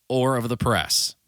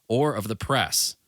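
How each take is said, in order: Both takes have the same delivery.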